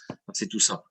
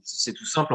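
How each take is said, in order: First: Ironic, lower and softer aside; in air quotes. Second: Said in the usual way. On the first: Shown as a demonstration. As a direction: say it with audible scare quotes. (entre guillemets, ton ironique) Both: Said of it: "je mets des guillemets".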